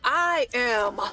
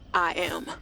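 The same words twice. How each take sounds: First: It sounds confident, with conviction. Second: It sounds hesitant, without conviction.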